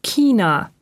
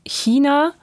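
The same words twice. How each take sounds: First: It is said a regional, non-standard way. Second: It is said the northern standard German way. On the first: The speaker calls it wrong. "und nicht China" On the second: The speaker calls it right. "die eher norddeutsche Aussprache der Standardlautung"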